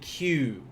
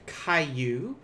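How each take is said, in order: First: The word is said as one syllable. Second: The word is split into two syllables. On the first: The speaker calls it right. "It's going to be Q, which is only one" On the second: The speaker calls it wrong. "It's not kaiju, which is two"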